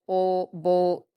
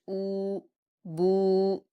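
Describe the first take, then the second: First: The vowel is an o sound. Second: The vowel is a full long u sound. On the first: The speaker calls it wrong. "कुछ लोग अ, इस तरह से पढ़ते हैं ओ बो, तो ऐसे नहीं पढ़ना, ये मजहूल हो जाता है" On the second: The speaker calls it right. "पूरे पेश की अदायगी के साथ आप पढ़ेंगे"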